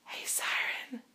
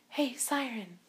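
First: It is spoken in a whisper. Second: It is spoken in a soft, voiced tone. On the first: The speaker calls it wrong. "instead of going" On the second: The speaker calls it right. "instead use a soft vocal tone"

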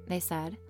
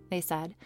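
No difference in how they are said.

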